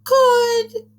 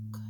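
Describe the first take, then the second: First: Very high, loud princess squeal; silly princess voice. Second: Very soft, barely there. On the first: Teacher showing children a silly princess voice, high-pitched. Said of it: "Maybe do a princess voice this time". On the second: Teacher showing children how to say a word softly. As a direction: say it as softly as you can. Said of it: "Say it soft". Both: Shown as a demonstration.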